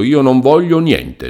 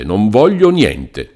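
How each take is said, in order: First: High, emphatic no on voglio; firm refusal. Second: Slower, settled no, voglio leaned on; slow final refusal. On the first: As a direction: refuse outright, pitch up. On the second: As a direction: close the matter, slowly. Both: Acted. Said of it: "con una tale risoluzione".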